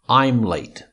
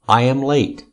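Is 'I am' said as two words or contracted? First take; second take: contracted; two words. First: I and am merge into one short syllable. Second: I and am are said as two separate words.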